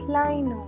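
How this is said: It is said the common British way. This is how most people in the UK say it. "here in the U K, most people pronounce it as Lino"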